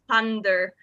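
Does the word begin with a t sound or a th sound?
th sound. The word begins with a th sound. This is the usual pronunciation elsewhere. "instead of"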